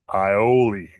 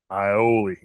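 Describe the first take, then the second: No difference in how they are said.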